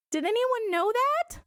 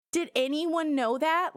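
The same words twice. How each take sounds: First: "Did anyone know that?" much higher, slow, rising in disbelief; incredulous. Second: "Did anyone know that?" repeated higher, slow, a calmer rising question; milder incredulity. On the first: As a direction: ask it in stunned disbelief. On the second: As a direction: repeat it, still amazed but calmer. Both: Real, not acted.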